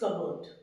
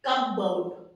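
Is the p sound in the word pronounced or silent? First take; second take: silent; pronounced. First: The p sound is silent in the word. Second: The p sound is pronounced in the word. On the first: The speaker calls it right. "P आपका silent रहता है" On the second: The speaker calls it wrong.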